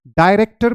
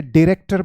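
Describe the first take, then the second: First: डायरेक्टर said "dye-REK-ter"; two pronunciations, first. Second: डायरेक्टर said "di-REK-ter"; two pronunciations, second. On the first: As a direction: open डायरेक्टर with a "dye" sound. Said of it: "इसे डायरेक्टर भी बोलते हैं". (डायरेक्टर में पहले "डाय" बोलें) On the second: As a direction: open डायरेक्टर with a short "di". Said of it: "और इसे डायरेक्टर भी बोलते हैं". (डायरेक्टर को "डिरेक्टर" बोलें) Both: Shown as a demonstration.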